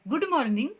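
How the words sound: It is said with a Hinglish, Indian-style pronunciation. The speaker calls it wrong. "ये कहेंगे तो Hinglish होगा"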